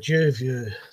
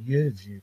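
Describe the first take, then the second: First: The word begins with a J sound. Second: The word begins with a Y sound. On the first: The speaker calls it wrong. "I kept calling it the Juview" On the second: The speaker calls it right. "it was pronounced the fucking Uview camera"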